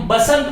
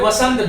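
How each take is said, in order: First: The word begins with a b sound. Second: The word begins with a v sound. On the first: The speaker calls it wrong. "जिसको हम बसंत बना देते हैं" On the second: The speaker calls it right. "एक शब्द है वसंत"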